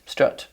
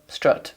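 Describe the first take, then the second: Both takes have the same delivery.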